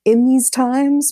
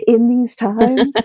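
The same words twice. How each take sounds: First: Said in the usual way. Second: Amused, laughing through the phrase. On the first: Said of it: "but, like, in these times". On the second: Shown as a demonstration. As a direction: chuckle as you say it again.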